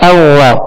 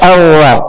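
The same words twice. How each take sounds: The two takes are said the same way.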